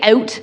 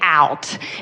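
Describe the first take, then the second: First: It is said with a Canadian accent. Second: It is said with an American accent.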